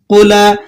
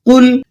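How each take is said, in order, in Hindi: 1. आखिरी लाम के बाद एक स्वर जोड़कर उसे छोड़ा जाता है। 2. आखिरी लाम बिना किसी अतिरिक्त स्वर के रोका जाता है। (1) "लाम को हिलाकर पढ़ते हैं" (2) "लाम को हिलाकर नहीं पढ़ना, बल्कि इसे इस तरह से अदा करेंगे"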